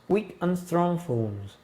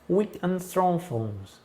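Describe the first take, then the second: The two takes are said the same way.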